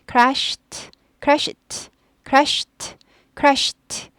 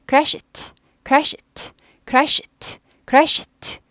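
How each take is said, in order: Both takes have the same delivery.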